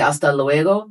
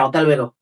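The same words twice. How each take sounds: First: It is said in a Mexican accent. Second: It is said in a southern Spanish accent.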